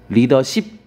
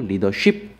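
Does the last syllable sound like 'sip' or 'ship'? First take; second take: sip; ship. First: The last syllable is said with a plain 's'. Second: The last syllable is said with an 'sh' sound. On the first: The speaker calls it right. "맞고" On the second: The speaker calls it wrong. "아닙니다"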